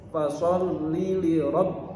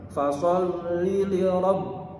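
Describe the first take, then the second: No difference in how they are said.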